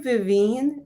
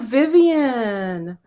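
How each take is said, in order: First: The name ends with a 'veen' sound. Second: The name ends with a 'vee-an' sound. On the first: This is how the owner of the name says it. The speaker calls it right. "it's actually Vivine" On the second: Other people say it this way. The speaker calls it wrong. "people say, oh, Vivian, hi"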